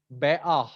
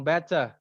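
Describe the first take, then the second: First: "beah" with a glottal stop for the T; dropped T. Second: "better" with a crisp T, no final R; clear T. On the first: Teacher showing another British "beah", T swallowed. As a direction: break "beah" in the middle, no T. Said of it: "ada yang ngomong". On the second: Teacher showing how some Londoners say "better", T sounded. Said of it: "Ada yang ngomong better". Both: Shown as a demonstration.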